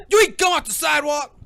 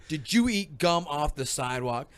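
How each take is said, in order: First: High, loud acted dad yell; mock angry interrogation. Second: Said in the usual way. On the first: Playing Will confronting his son, mock angry yell. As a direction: demand it like an outraged dad.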